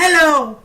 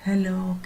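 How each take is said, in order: First: It is said loudly, with more force. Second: It is said softly, with little force.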